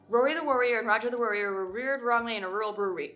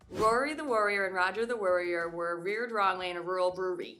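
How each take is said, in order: First: It is said at a faster pace. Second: It is said at a moderate pace.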